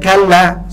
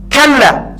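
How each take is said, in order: First: The word is said softly and gently. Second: The word is said forcefully, as a sharp rebuke. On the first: The speaker calls it wrong. "salah, salah ngomong dia" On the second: The speaker calls it right.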